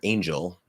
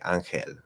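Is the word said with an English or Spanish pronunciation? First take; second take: English; Spanish. First: It is said with English sounds and a weak L. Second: It is said with Spanish sounds and a clear L. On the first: "angel in in English, right, which that's a half L" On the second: "if I say ángel ... just like doing that L"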